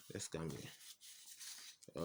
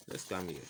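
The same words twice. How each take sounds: First: Slow, breathy whisper under the breath. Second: Said in the usual way. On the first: Real, not acted. Teacher murmuring to himself while moving on, whispered. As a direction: drop to a near-silent aside. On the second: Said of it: "repeated right after as a whisper".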